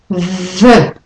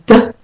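First: The TH sound is held before the vowel. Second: The TH sound is short and not held. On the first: The speaker calls it right. "and you hold it" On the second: The speaker calls it wrong. "So it's not the"

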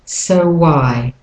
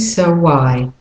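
First: A w sound links the two words. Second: A w sound links the two words.

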